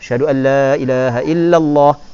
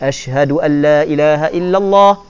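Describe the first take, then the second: No difference in how they are said.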